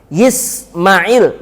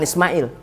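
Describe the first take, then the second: First: The name begins with a 'y' sound. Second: The name begins directly with a vowel. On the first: This is how people there say it. The speaker calls it right. "Kalau orang sana ngomongnya Yismail" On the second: The speaker calls it wrong.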